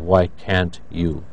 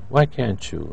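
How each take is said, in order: First: The t and y are pronounced separately. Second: The t and y merge into a ch sound.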